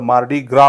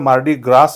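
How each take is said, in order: First: The phrase ends on a vowel sound. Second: The phrase ends with an s sound. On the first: The speaker calls it right. "शेवटचा जो येस आहे त्याचा स sound होत नाही" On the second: The speaker calls it wrong. "Correct उच्चार मार्डी ग्रास नाही होत"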